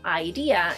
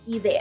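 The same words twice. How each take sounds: First: It is pronounced with English vowel sounds. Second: It is pronounced with Spanish vowel sounds. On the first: The speaker calls it wrong. "it might be tempting to pronounce it as it is in English" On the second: The speaker calls it right. "we say idea"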